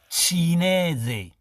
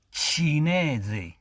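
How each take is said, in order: Both takes have the same delivery.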